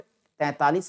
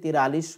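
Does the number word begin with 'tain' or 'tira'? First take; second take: tain; tira. First: The word is said as 'taintalis'. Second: The word is said as 'tiralis'. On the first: The speaker calls it right. "सही शब्द पढ़िएगा" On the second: The speaker calls it wrong. "गलती से तिरालीस मत बोलिएगा that is wrong word"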